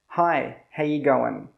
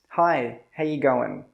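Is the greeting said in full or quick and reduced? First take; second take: reduced; reduced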